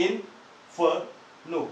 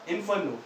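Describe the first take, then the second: First: इन्फर्नो very slowly in three separate syllables, इन-फर-नो. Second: Said in the usual way. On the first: Shown as a demonstration. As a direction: break इन्फर्नो into इन, फर, नो with clear gaps. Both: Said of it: "इसमें तीन syllable है".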